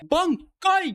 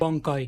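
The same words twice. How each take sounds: First: Ichigo's way: heavy pressure on the first syllable. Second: Byakuya's way of saying it.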